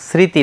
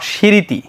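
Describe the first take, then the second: First: The word begins with an s sound. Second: The word begins with an sh sound. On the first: The speaker calls it right. "দেখো এস এর মতো উচ্চারণ হয়েছে" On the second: The speaker calls it wrong. "Not"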